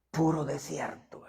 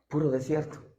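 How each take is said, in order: First: "Puro desierto" whispered, slowly; hushed slow whisper of "Puro desierto". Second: Said in the usual way. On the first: Shown as a demonstration. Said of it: "Puro desierto (said first aloud)". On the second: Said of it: "Puro desierto (repeated whispered)".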